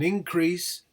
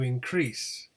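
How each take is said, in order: First: The stress is on the first syllable. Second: The stress is on the second syllable. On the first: It is used as a noun. "the noun, as you can see, is stressed on the first syllable" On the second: It is used as a verb. "the verb is stressed on the second syllable"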